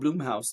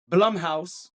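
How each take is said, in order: First: The first vowel is long, as in 'bloom'. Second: The first vowel is short, as in 'drum'. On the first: The speaker calls it wrong. "I always say Bloomhouse" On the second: The speaker calls it right. "I'm pretty sure it's Blum because it's B L U M"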